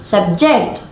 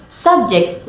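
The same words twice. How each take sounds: First: SUBJECT as a verb, JECT stressed; stress on second syllable. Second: SUBJECT as a noun, SUB stressed; stress on first syllable. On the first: Teacher contrasting noun and verb, second syllable stressed in "subject". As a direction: punch the last syllable of "subject". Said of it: "with stress on the second syllable". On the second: Teacher contrasting noun and verb, first syllable stressed in "subject". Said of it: "with stress on the first syllable". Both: Shown as a demonstration.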